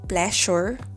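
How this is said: It is said with a Filipino accent. "we say pleasure"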